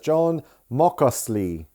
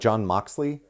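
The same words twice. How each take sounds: First: An extra vowel is inserted within the x sound. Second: The name is said plainly without an added vowel.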